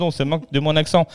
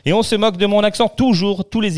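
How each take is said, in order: First: Said in the usual way. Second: Plus aigu et plus fort, débit rapide, plainte amusée; râle en riant à moitié contre les moqueries; faussement outré. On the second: Real, not acted. Se plaint qu'on moque son accent. (protestation faussement indignée, aiguë et rapide)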